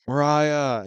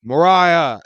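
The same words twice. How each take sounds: First: Said in the usual way. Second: Mariah called out much louder, fed up; sick and annoyed, yelling for his water; angry call. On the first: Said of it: "I'm like". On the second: Retold or imitated. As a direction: yell Mariah across the flat, fed up. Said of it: "I'm starting to get pissed off".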